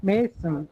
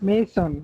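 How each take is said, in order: The two takes are said the same way.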